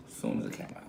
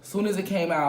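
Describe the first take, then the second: First: Hushed whispered repeat; whispering. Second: Said in the usual way. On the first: Real, not acted. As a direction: whisper it to yourself.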